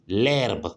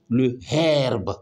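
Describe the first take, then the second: First: The article is elided into the word. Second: The article is said in full, unelided. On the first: The speaker calls it right. "on dit l'herbe" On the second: The speaker calls it wrong. "on ne dit pas le herbe"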